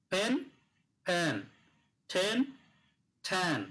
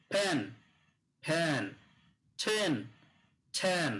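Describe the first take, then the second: First: "ফ্যান" with an open a-like vowel, "ছেন" with a closed e; teacher repeats the vowel contrast; minimal pair drill. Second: "ফ্যান" with an open a-like vowel, "ছেন" with a closed e; minimal pair drill. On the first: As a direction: repeat "ফ্যান" then "ছেন", each word spaced out. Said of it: "এ উচ্চারণ হবে". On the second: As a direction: say "ফ্যান" twice, then "ছেন" twice, vowels set apart. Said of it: "থাকলে উচ্চারণ হবে এ". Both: Shown as a demonstration.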